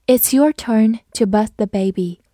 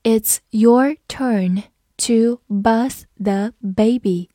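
First: Said in the usual way. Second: Put-on "It's your turn to bath the baby" at half speed, each word clear; slow reading. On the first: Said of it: "我们慢读一遍". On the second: Shown as a demonstration. Teacher announces a slow reading for students. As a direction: read it slowly so students can follow. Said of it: "好，我们慢读一遍".

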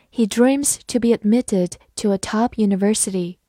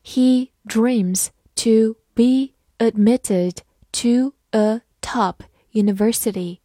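First: Said in the usual way. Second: Slow, deliberate reading for learners; slow teacher read-aloud; slowly. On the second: Shown as a demonstration. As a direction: drag each word out carefully. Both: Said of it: "好，慢慢来读。".

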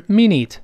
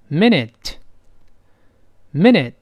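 First: Minute with "ee" vowels; wrong minute. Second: Minute as slow "min-et", clear t; correct short vowel. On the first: Teacher rejects the misreading, minute as "mee-neet". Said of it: "所以不是". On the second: Teacher has learners repeat, minute slow as "min-et". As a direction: say minute with relaxed short e, slowly. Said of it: "短音在单词中间应该发哎". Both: Shown as a demonstration.

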